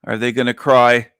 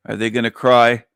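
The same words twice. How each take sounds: The two takes are said the same way.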